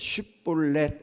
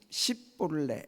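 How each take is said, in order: First: The word begins with a 'sh' sound. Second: The word begins with an 's' sound. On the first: The speaker calls it right. "쉽이 영어로 에스에이치 발음" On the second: The speaker calls it wrong. "발음이 안 돼가지고 십, 십볼렛 이렇게 발음하는 거예요"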